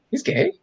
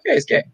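First: High, softly incredulous question; puzzled surprise. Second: Higher-pitched, simple confirming answer; matter-of-fact confirmation. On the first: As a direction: question it as if it can't be true. Child's stunned question to mom. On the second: Mom answering her puzzled child, matter-of-fact confirmation. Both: Retold or imitated.

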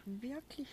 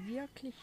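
Both takes have the same delivery.

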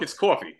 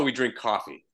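First: "coffee" with a rounded aw, CAW-fee; loaded New York vowel in "coffee". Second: "coffee" with an open ah, CAH-fee; Toronto "coffee". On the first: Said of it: "In, in New York". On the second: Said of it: "in Toronto". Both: Shown as a demonstration.

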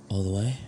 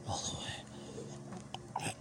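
First: Said in the usual way. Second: Very soft, slow whispered reply. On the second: Acted. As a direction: drag it out in a hush. Question then whispered repeat.

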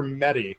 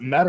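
First: Mete said as two syllables, like "metty". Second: Mete said as one syllable, like "met". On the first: Host offering the other surname reading, Mete as "metty". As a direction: say Mete with an "ee" on the end. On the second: Host unsure of the player's surname, Mete as one syllable. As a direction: say Mete short, rhyming with "bet". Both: Shown as a demonstration. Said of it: "Is it Mete or Mete?".

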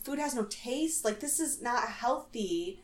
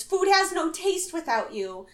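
First: Quiet, questioning disbelief; lightly imitated onlooker's worry; Nastasia. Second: High, plaintive imitation; mock lovesick lament, pitched up; Victoria. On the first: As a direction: softly echo it as a concerned question. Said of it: "She's like". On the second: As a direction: wail it lightly, as a homesick caller. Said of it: "And Victoria goes".

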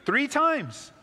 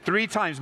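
First: "Three times" much higher, hitting times hard; emphatic three times. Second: "Three times" with a firm push on Three; stressed three times. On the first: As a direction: ring out "Three times" as the answer. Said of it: "How many times does Elijah lay". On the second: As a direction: lean on "Three" to teach. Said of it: "Mark those words". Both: Shown as a demonstration.

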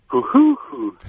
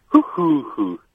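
First: Much higher, quick three-note pigeon hoot; Hungarian pigeon coo. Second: London pigeon coo. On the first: Host asks for the Hungarian pigeon, caller hoots much higher. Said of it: "now do the Hungarian one". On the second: Host asks for the London pigeon, caller coos it higher. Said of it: "Do the London one again". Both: Shown as a demonstration.

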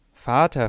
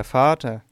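First: Loud anguished cry of Vater, held open; desperate cry for her father; piercing wail. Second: Loud anguished Vater, falling away at the end; a wailing cry that dies down; piercing wail. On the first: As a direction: call Vater out in pain, reaching upward. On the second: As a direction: let the second Vater sink in despair. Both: A narrator's reading. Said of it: "rief sie mit durchdringendem Wehelaut".

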